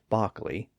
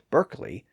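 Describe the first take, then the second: First: The first vowel sounds like 'ah' without an R. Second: The first vowel sounds like 'er' with an R. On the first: "Dobby and Bockley without the R sound" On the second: "Americans call Derby and Berkeley"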